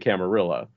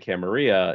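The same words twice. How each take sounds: First: The double L is said like an L. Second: The double L is said like a Y. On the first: The word is treated as English. "But some people say Camarilla" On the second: The speaker is familiar with Spanish. "familiar with Spanish and the double L"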